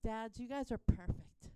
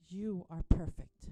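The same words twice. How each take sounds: First: Said in the usual way. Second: Loud, stress on You, said firmly; emphatic declaration. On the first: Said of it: "I want you kids to lean over and say". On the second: Shown as a demonstration. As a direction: declare You are perfect for the kids to copy. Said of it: "say to any dad that is around".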